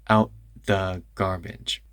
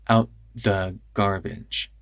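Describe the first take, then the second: The two takes are said the same way.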